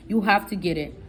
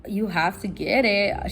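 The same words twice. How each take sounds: First: Dismissive clerk. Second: Incredulous repeat. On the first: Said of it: "She's talking to me like that, with rolling her eyes". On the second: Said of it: "I was like". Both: Retold or imitated.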